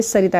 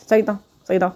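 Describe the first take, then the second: First: Said in the usual way. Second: सरिता said with a strange, garbled tone, the syllables slurred away; mangled name. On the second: Shown as a demonstration. Showing viewers how a karmic partner mangles सरिता. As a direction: say सरिता carelessly, as if you can't be bothered to get it right. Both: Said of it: "मतलब एक अलग ढंग से".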